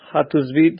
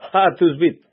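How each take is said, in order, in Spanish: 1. Empieza con un sonido h suave y aspirado. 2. Empieza con un sonido j duro y gutural. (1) "este es como un aliento" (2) "con J"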